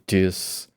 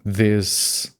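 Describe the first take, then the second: First: It starts with a d sound instead of th. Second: It starts with a th sound, tongue between teeth. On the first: The speaker calls it wrong. "people say this" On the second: The speaker calls it right. "instead of saying this"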